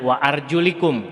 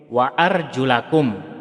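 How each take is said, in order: First: The vowel after the l is 'i'. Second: The vowel after the l is 'a'. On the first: "dengan kasroh pada lamnya" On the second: "dengan fathah pada lamnya"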